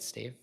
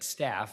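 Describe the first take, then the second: First: It has a long 'ay' vowel and ends in 'v'. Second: It has a short 'a' vowel and ends in 'f'. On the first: The speaker calls it wrong. "Did I say it right" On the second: The speaker calls it right. "Like I said"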